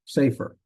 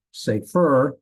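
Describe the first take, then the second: First: Safer with stress on the first syllable, "SAY-fer". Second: Safer with loud stress on the last syllable, "FER"; wrong final stress. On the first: Teacher corrects the accent for students, safer stressed on its first syllable. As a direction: hit the start of safer, let "fer" drop. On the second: Teacher shows students the wrong accent, safer stressed on its last syllable. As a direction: punch the second syllable of safer, drawn out. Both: Shown as a demonstration. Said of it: "accent on the first syllable".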